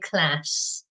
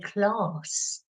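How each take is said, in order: First: It is said with an American accent. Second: It is said with a British accent. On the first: "you learn American English and you say class" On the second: "I'm British, so I say class. It's very posh"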